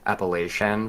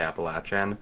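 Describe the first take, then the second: First: Pronounced the way northern US speakers say it. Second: Pronounced the way southern US speakers say it. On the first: "people kind of like above Pennsylvania tend to say" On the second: "people below tend to say"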